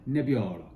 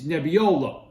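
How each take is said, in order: First: It is said with a refined, sophisticated accent. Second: It is said with a thick New York accent. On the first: "sophisticated wine critic" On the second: "if you have a really thick New York accent"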